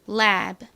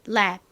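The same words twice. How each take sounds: First: Said slowly, with a clearly released final b. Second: Said fast, with an unreleased, clipped final b. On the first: "천천히 발음하면 lab, lab 이렇게 끝에 B 소리가 나지만" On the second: "빠르게 발음하면 lab, lab 이렇게 받침처럼 들립니다"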